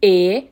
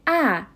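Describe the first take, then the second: First: "ا" as a held closed eh; closed E sound. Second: "ا" as an open a, like in cat; open A sound. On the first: Teacher recapping the first word's vowel, "ا" as closed eh. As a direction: sound "ا" like the e in bed. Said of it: "حرف به صورت". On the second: Teacher recapping the second word's vowel, "ا" as open a. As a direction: sound "ا" as æ, held. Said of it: "این حرف به صورت ا تلفظ شد". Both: Shown as a demonstration.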